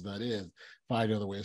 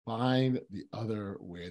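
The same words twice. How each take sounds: First: Said in the usual way. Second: Slow, deliberate "Find the other way"; savoring the phrase. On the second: Real, not acted. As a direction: let "Find the other way" land slowly, word by word. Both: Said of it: "Those are great words".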